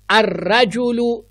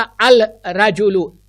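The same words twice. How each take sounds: First: "अर्रजुलु" slow, with a doubled r and no L; lam assimilated. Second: "अल रजुलु" with the lam wrongly sounded; wrong clear al. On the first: Teacher showing the right sun-letter reading. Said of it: "मैंने नहीं कहा अल रजुलु". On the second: Teacher showing the mistake to avoid. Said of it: "it's wrong". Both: Shown as a demonstration.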